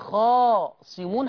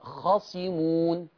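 First: The first vowel is long. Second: The first vowel is short. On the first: The speaker calls it wrong. "لو قلتي خاصمون حطيتي ألف" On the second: The speaker calls it right. "الكلمة فيها ألف؟ لا. يبقى خاصمون"

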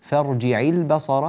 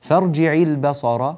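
First: The ayn carries a full, clear i vowel. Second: The same.

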